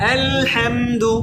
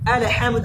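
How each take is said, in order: First: The word is said slowly with a held L. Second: The word is said quickly with a clipped L. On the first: The speaker calls it right. "কত সুন্দর লাগে" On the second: The speaker calls it wrong. "আমি দ্রুত বলছি"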